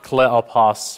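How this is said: The name is said in a Greek-style pronunciation. "or whatever you might say in Greek"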